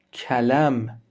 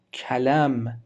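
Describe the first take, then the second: No difference in how they are said.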